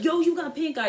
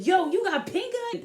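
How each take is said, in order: First: Imitating friend. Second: High startled mock question; imitating alarmed friend. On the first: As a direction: point and announce it. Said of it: "she's like". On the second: Friend Tasia backing away, high startled mock question. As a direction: recoil and blurt it out. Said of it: "backed up and said".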